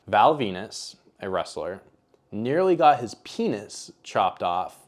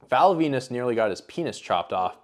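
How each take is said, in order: First: It is said slowly. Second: It is said fast.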